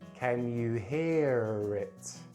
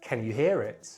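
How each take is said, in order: First: The phrase is said very slowly. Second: The phrase is said quite quickly. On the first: "Then I'm going to say it very slowly" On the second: "I'm going to say them quite quickly"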